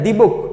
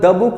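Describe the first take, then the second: First: 'The' is said with a long 'ee' vowel. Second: 'The' is said with a short 'uh' vowel. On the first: The speaker calls it right. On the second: The speaker calls it wrong.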